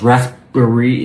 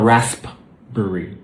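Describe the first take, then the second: First: The P sound is left out. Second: The P sound is clearly pronounced. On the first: The speaker calls it right. "the P disappears" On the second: The speaker calls it wrong. "It's not raspberry"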